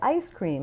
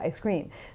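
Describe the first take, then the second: First: The stress falls on the word ice. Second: The stress falls on the word cream. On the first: "I need to buy" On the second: "as opposed to"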